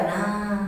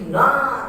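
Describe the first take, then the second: First: NAR drawn out without any lift or push; wrong low intonation. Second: NAR raised and stressed on the long vowel; correct high intonation. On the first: Teacher showing what Arabs don't say, unraised "nar". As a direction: keep "nar" level and soft, no stress. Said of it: "Nggak ada nar". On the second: Teacher correcting the unraised version, high stressed "nar". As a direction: lift "nar" with a firm push. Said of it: "Tapi nar". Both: Shown as a demonstration.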